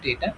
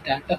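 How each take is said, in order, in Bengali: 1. প্রথম স্বরধ্বনিটি একটি 'ay' শব্দ। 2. প্রথম স্বরধ্বনিটি একটি খোলা 'ah' শব্দ। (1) "উচ্চারণ করে ডেটা" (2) "ডাটা হবে না"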